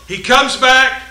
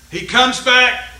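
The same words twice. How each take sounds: The two takes are said the same way.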